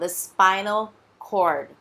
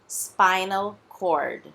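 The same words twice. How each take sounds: Both takes have the same delivery.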